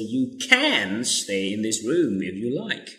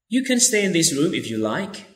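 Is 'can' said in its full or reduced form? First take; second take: full; reduced. First: The word 'can' is full and stressed. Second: The word 'can' is reduced and unstressed.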